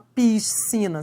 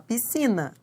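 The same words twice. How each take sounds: First: The s and c are sounded separately. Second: The s and c merge into one sound. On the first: The speaker calls it wrong. "Você não fala piscina" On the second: The speaker calls it right. "você fala piscina, né? ... eles formam um único som"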